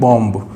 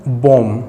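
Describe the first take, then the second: First: The word ends with an audible b sound. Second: The word ends on m with no b sound. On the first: The speaker calls it wrong. "न कि बॉम्ब" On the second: The speaker calls it right. "हम जब इसको बोलते हैं तो बॉम"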